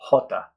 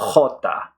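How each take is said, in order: First: The J is soft, like an English H, Colombian-style. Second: The J is harsh, guttural and raspy, as in Peru or Spain.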